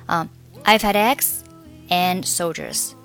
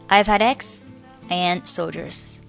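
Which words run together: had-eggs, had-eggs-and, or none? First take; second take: had-eggs; had-eggs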